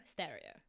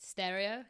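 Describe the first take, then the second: First: "Stereo" lower and softer, falling; low, falling American-style "Stereo"; trying American pronunciation. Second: "Stereo" with a questioning rise; American-style "Stereo" as a question; trying American pronunciation. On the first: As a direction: try "Stereo" American-style as a quiet statement. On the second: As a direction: test an American "Stereo", unsure. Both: Shown as a demonstration. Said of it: "How does an American say it?".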